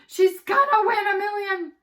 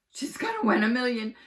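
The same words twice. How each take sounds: First: Much higher, much louder screaming cheer; ecstatic shout. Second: Louder, excited shout; a kid cheering at the TV. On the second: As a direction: cheer her on. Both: Acted. Kids cheering at TV.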